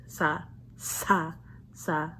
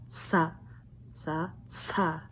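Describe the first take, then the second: No difference in how they are said.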